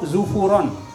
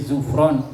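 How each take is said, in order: First: A u vowel is heard between f and r. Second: No vowel is heard between f and r. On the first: "domah kemudian domah" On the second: "Domah kemudian sukun"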